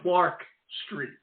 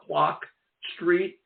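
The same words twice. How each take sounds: First: "Clark" with a clear R before the K; "Clark Street", R fully voiced; R sounded. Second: "Clock" with the R dropped, New England style; R-less "Clock Street"; misheard street name. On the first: Shown as a demonstration. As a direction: pronounce the R in "Clark" distinctly. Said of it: "C L A R K". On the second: Retold or imitated. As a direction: say "Clock" for Clark, no R sound. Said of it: "What he actually had said was Clark".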